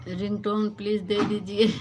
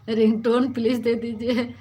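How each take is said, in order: First: Said in the usual way. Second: "ringtone please दे दीजिए" said louder through a laugh; laughing repeat. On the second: Real, not acted. Repeating her mixed-up word to viewers, laughing loudly. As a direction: laugh at her own slip while asking again.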